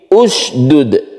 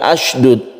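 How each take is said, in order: First: The word begins with a u vowel. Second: The word begins with an a vowel. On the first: The speaker calls it right. "tapi usdud" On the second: The speaker calls it wrong. "bukan asydud"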